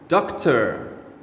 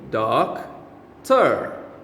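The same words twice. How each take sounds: First: The word is said at normal speed. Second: The word is said slowly and drawn out.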